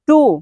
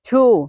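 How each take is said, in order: First: The t is said in a Bengali-style way. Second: The t is said in an American-style way. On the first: The speaker calls it wrong. "আমরা বলি two" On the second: The speaker calls it right. "আপনাকে উচ্চারণ করতে হবে two"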